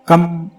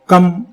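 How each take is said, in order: First: The syllable ends in a closed 'm' sound. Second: The same.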